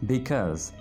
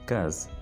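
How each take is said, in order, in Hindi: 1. शब्द अपने पूरे दो-अक्षर वाले रूप में बोला जाता है। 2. शब्द को छोटा करके एक ही अक्षर में बोला जाता है। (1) "Because is a long word" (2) "simply कह सकते हैं cause"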